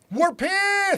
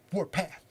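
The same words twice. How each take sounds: First: High, loud tough-guy shout; gangster voice. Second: Said in the usual way. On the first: Shown as a demonstration. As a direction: try to sound like a gangster. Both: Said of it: "I was trying to sound like a gangster".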